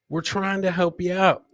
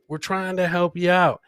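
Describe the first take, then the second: No difference in how they are said.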